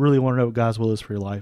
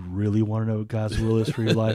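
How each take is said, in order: First: It is said in a plain, neutral tone. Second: It is said in a menacing, threatening tone.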